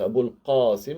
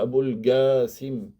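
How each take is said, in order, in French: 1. Qasim commence par un son q profond. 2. Qasim commence par un son g dur. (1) "avec le qa" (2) "ils peuvent prononcer le qa en ga"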